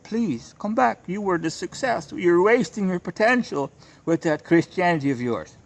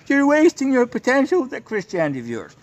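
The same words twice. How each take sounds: First: High, coaxing imitation of begging mothers; pleading mothers. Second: Much higher and louder, sneering caricature; mocking imitation. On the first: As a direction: beg him sweetly to come back, pitched up. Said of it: "they're kissing the ring". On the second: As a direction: parody them, shrill and scornful. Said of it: "to them, Christianity is a fucking mental illness".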